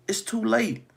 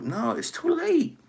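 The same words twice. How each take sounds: First: Said in the usual way. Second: "No, it's too late" pitched much higher and slow, "late" falling; preacher driving home that it is too late; drawn-out warning. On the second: Acted.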